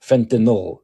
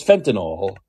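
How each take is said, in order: First: "fentanyl" said fen-ta-nil, the last syllable a short "nil"; correct pronunciation. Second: "fentanyl" said fen-ta-nol, ending in an open "awl"; Biden's mispronunciation. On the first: Shown as a demonstration. Host shows Biden the right way to say "fentanyl", ending "nil". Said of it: "tell him the word is fentan". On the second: Retold or imitated. Host imitates how Biden says "fentanyl", ending it "nawl". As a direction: say "fentanyl" with the last syllable as "nawl". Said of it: "So he says fentanyl".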